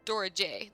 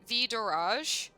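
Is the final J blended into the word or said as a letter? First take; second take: letter; blended. First: The final J is said as a letter name. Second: The final J is blended into one word. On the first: "Like we we split the J apart" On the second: "Is it Vidoraj? Like that?"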